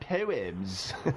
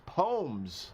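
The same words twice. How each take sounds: First: The word has a fancier, more careful pronunciation. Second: The word has its plain everyday pronunciation. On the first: The speaker is trying to sound smarter. The speaker calls it wrong. "not poems" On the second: This is the common agreed way to say it. The speaker calls it right. "We decided a long time ago that it's poems"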